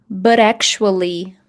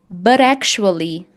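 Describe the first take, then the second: No difference in how they are said.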